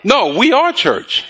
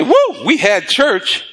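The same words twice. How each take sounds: First: Slow, higher correction landing on "are"; "are" stressed as a firm correction. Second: Higher, drawn-out "Woo, we had church"; imitated after-service whoop; mock churchgoer's elation. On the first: Real, not acted. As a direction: lean firmly on "are", then drop on "church". Corrects the imitated churchgoer's phrase. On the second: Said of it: "I don't go somewhere and say".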